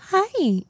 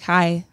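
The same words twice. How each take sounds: First: The pitch of 'hi' is raised high. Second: The pitch of 'hi' stays flat and low.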